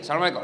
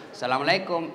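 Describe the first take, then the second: First: Brisk, no-nonsense Assalamualaikum; clipped, firm salam to the caller; firm greeting. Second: Soft, lilting phone greeting, drawn sweetly; languid swoony greeting. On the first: Shown as a demonstration. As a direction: say it short and businesslike. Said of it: "Coba kalau tegas sedikit". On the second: Retold or imitated. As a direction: coo it like a girl charming her boyfriend. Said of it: "jangan kau mendayu-dayu mensahdukan suaramu".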